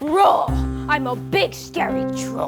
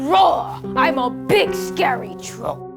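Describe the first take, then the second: First: The troll voice sounds noticeably more scary. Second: The troll voice sounds only mildly scary.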